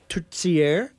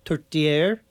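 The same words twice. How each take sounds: First: Tourtière with a ts sound, "toor-TSYAIR"; Quebec tourtière. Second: Tourtière with a clean T, "toor-TYAIR"; French tourtière. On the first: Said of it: "kind of a T S sound combination". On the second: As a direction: say tourtière the way it's said in France. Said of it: "as they would say in France". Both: Shown as a demonstration.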